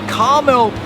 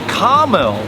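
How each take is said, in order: First: American accent, with the middle vowel dropped. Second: American accent, with the middle vowel dropped.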